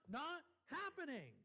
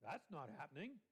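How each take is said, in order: First: Not happening, raised and firm; forceful, lifted Not happening; emphatic refusal. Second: Low, offhand That's not happening; dismissive aside, dropped low; casual brush-off. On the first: Acted. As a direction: declare it as Paul's final answer. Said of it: "that's what Paul says". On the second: Retold or imitated. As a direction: toss it away like everyday slang. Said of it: "you don't want to do it".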